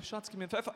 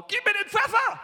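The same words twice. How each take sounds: First: Said in the usual way. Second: Loud, high shout of a man who can't hear himself; deaf shout. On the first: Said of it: "Also hab ich ganz normal geredet". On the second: Retold or imitated. Half-deaf husband asking his wife for pepper, shouting. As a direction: bellow across the dinner table. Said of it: "Ich sag zu meiner Frau".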